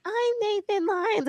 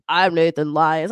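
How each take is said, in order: First: Put-on high, slow little kid voice; squeaky young kid imitation. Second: Low, slow man's voice; deepened grown man imitation; deep grown-up voice. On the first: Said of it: "his voice was like". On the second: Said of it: "He was like".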